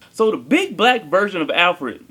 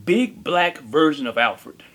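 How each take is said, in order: First: Said in the usual way. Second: Slow, drawn-out phrase. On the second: Shown as a demonstration. Repeated phrase, first take.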